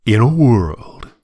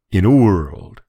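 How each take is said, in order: First: Slow, dramatic "In a world"; a hint of the trailer announcer; movie trailer voice. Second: Lightly imitating the trailer announcer; a touch of "In a world" drama; movie trailer voice. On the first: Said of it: "best known for starting many trailers by saying". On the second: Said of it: "he's like".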